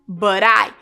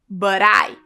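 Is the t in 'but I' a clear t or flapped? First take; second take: flapped; flapped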